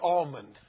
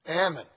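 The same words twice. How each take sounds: First: It is said in the speaker's own usual pronunciation. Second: It is said in the California regional pronunciation. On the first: This is how the word is said at home. "That's the correct way to say almond" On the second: This is how the word is said in California. "That's how they say it out there"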